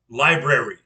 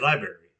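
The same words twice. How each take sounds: First: The word is said with every syllable articulated. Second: The word is said in a slurred, reduced way. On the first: The speaker calls it right. "I'll correct them" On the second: The speaker calls it wrong. "my daughter will say library. It drives me to the wall"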